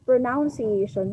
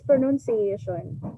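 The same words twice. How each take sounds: First: The second syllable has an 'o' sound, like 'noun'. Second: The second syllable has no 'o' sound, like 'nun'. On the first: The speaker calls it wrong. "Some teachers would pronounce it pronunciation" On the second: The speaker calls it right. "but there's no O. So it's pronunciation"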